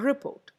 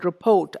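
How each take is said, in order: First: The stress is on the first syllable. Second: The stress is on the second syllable. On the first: It is used as a noun. "The first syllable" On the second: It is used as a verb. "verb ആവുന്ന സമയത്ത് it is a second syllable that gets the stress"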